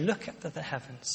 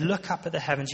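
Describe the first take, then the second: First: Much softer, gentle and hushed; tender. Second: Said in the usual way. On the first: Retold or imitated. God gently leading Abraham outside, soft and tender. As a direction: speak it with an arm around his shoulder. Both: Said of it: "You can almost see God putting his arm around Abraham".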